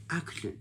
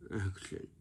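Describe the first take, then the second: First: Higher, brighter "Action"; energetic action. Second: Soft, lifeless "Action."; lazy action. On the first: Director calling "Action" with effort. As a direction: lift "Action" with real energy. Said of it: "You sound like this". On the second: Director giving a half-hearted "Action.". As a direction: mumble "Action." with no effort. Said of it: "you sound like this". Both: Shown as a demonstration.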